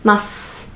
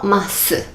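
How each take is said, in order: First: The final u vowel is almost silent. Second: The final u vowel is fully pronounced. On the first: The speaker calls it right. "the su sound is almost like silent" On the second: The speaker calls it wrong. "like not masu"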